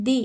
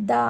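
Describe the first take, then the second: First: The said long, as thee before a vowel sound. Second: The said short, as thuh before a consonant sound. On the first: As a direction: stretch the into thee. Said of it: "the అని పలకాలి". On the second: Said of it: "మధ్యలో వచ్చే పదాలకు". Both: Shown as a demonstration.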